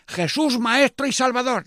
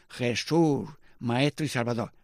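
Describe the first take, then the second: First: High, loud call for the crowd to repeat; loud leader's call before repeating; leading call. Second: Said in the usual way. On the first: Shown as a demonstration.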